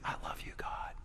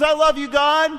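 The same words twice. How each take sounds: First: The words are whispered very quietly. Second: The words are shouted very loudly. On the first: "Let's whisper it" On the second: "Let's say it at the top of our lungs"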